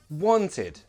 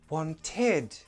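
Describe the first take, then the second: First: The last syllable is weak and unstressed. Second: The last syllable is stressed and prominent. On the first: The speaker calls it right. "it's a very weak id. It's never stressed" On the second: The speaker calls it wrong. "you're stressing the end syllable and it's confusing"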